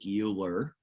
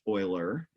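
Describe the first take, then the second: First: It is said as the English spelling suggests. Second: It is said with the German pronunciation. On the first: The speaker calls it wrong. "It looks like Euler" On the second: The speaker calls it right. "but it's pronounced Euler. It's German"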